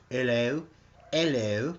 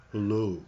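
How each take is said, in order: First: Put-on hello with a light English accent, rising. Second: Hello with a rounded English o; Amanda's hello. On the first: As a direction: imitate how the English say hello. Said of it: "the way they say it". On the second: Retold or imitated. Greeting viewer Amanda, echoing her English hello. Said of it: "That's new. Must be an English thing".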